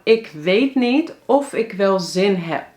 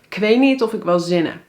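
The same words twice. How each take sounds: First: Every word is pronounced fully and separately. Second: Some words are shortened into reduced forms. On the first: The speaker calls it wrong. "Maar dit zeggen we eigenlijk niet zo" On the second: The speaker calls it right. "Dan zeggen we"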